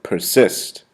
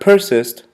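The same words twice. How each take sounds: First: The stress is on the second syllable. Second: The stress is on the first syllable. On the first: The speaker calls it right. "the accent is placed basically on the second syllable" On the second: The speaker calls it wrong. "Not persist"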